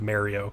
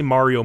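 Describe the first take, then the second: First: It is the East Coast pronunciation of the name. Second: It is the Italian-style pronunciation of the name. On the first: This is the pronunciation the speaker grew up with. The speaker calls it wrong. "instead of Mario. I grew up saying Mario" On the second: This is the pronunciation the speaker now tries to use. The speaker calls it right. "I try to say Mario more often now"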